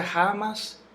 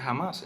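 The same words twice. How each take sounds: First: First "jamás" stressed on JA; misplaced stress. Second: Said in the usual way. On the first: Shown as a demonstration. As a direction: punch JA in "jamás" as a wrong example. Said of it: "¿Se pronuncia jamás o jamás?". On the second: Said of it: "Se pronuncia jamás".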